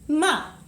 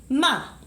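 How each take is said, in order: The two takes are said the same way.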